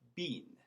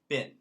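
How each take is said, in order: First: The vowel is long, as in 'bean'. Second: The vowel is short, as in 'bin'. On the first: "In England, it's E, been" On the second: "In America, we say... I sound, been"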